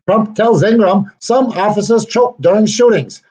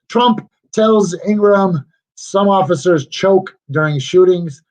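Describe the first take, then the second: First: It is read in a special put-on voice. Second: It is read in an ordinary speaking voice.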